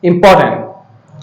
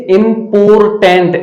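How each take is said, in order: First: इंपॉर्टेंट as im-PAW-tnt, slow, with R dropped; correct pronunciation. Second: इम्पोर्टेंट as im-POR-TENT, R and full final syllable sounded; children's mispronunciation. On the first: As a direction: model इंपॉर्टेंट slowly, silent R and reduced ending. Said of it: "that is incorrect pronunciation". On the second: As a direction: imitate the learners' wrong इम्पोर्टेंट, each syllable heavy. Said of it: "कई बच्चे इसे इम्पोर्टेंट ऐसे पढ़ते हैं". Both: Shown as a demonstration.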